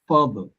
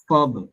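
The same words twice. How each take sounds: No difference in how they are said.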